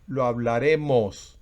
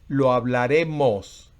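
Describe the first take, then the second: Both takes have the same delivery.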